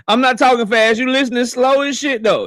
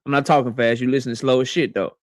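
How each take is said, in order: First: Laughing retort. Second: Said in the usual way. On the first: Real, not acted. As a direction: tease them through a laugh. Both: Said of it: "repeat take".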